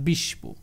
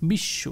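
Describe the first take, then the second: First: The sh sound is followed by a b-like sound. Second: The sh sound is doubled, with no b. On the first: The speaker calls it wrong. "Not" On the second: The speaker calls it right. "দুইবার উচ্চারণ করবো"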